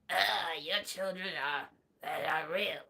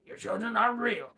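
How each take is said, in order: First: Low, soft mock Strange voice; a hint of the sorcerer's gravity; understated low Doctor Strange; lightly voiced Doctor Strange. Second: A corrected take of the line; lightly voiced Strange; a hint of Cumberbatch's Strange; attempted Doctor Strange. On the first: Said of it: "He doesn't say it like that". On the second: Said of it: "I can't do, um, Benedict Cumberbatch".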